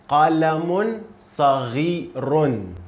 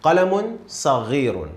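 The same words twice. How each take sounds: First: قلم صغير, slow, every syllable clear; slow model reading. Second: Said in the usual way. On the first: Shown as a demonstration. Teacher reads it slowly for a student. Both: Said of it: "Try to read it by yourself".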